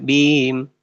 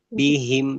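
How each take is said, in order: First: The middle h sound is dropped. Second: The middle h sound is clearly heard. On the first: The speaker calls it wrong. "tidak bim" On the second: The speaker calls it right. "haknya perjelas"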